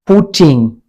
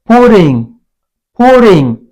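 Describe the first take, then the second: First: Said in the usual way. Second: PUTTING with the T tapped, like "pu-ring"; American soft T. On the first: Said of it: "It's called putting". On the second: Shown as a demonstration. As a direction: soften the T in "putting" to a light tap. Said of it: "It's called".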